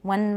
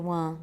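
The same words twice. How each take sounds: First: The word ends in a clear front n. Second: The word ends in a back ng sound. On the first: The speaker calls it right. "watch the N in one" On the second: The speaker calls it wrong. "Don't say one"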